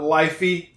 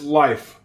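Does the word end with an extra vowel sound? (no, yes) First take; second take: yes; no. First: An extra 'ee' vowel is sounded after the f. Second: The word ends cleanly on the f sound. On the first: The speaker calls it wrong. "That is not lifey" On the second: The speaker calls it right. "It is life"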